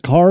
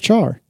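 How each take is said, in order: First: The word starts with a k sound. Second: The word starts with a ch sound. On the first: "Is it car or char?" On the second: "Is it car or char?"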